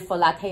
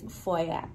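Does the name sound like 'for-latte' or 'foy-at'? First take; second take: for-latte; foy-at. First: It is said with a clear L, like 'for latte'. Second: It is said with a Y glide, like 'foy-at'. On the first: The speaker calls it wrong. "錯咧就會 for latte 啊" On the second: The speaker calls it right. "So what was the real way? It's foyat"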